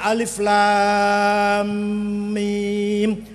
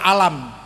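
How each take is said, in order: First: Each letter name is spoken separately and drawn out. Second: The letters are run together into one short word. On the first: The speaker calls it right. "bacanya alif lam mim panjang" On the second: The speaker calls it wrong. "kalau nggak ada ilmu tajwid, alif lam mim kita baca alam"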